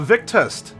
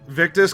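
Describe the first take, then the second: First: The name ends with a t sound. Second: The name ends with an s sound. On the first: The speaker calls it wrong. "I know I was pronouncing the T at the end" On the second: The speaker calls it right. "but Victus"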